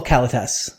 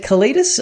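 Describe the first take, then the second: First: "Kalitas" as KAL-uh-tass; second pronunciation option. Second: "Kalitas" as kuh-LEE-dus; first pronunciation option. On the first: Host offering the other option, "Kalitas" as KAL-uh-tass. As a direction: say "Kalitas" stressed up front, with a full "tass" ending. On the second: Host asking co-host which is right, "Kalitas" as kuh-LEE-dus. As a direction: say "Kalitas" with the middle syllable stressed, "LEE". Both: Shown as a demonstration. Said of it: "is it Kalitas or Kalitas?".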